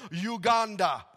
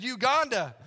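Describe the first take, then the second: First: Loud imitation of a Ugandan accent; name the country proudly Ugandan-accented. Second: Said in the usual way. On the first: Stranded man telling the pastor where he's from, Ugandan accent. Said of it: "This is an awesome accent".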